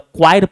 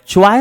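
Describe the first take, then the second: First: The word begins with a k sound. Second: The word begins with a ch sound. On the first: The speaker calls it right. "क्वायर पढ़िएगा" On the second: The speaker calls it wrong. "च्वायर इसको नहीं पढ़िएगा"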